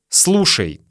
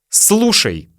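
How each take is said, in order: The two takes are said the same way.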